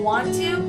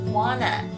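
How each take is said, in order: First: Both words are said fully and separately. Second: The words blend into one reduced word. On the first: "the words want to" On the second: "WANNA stands for the words want to"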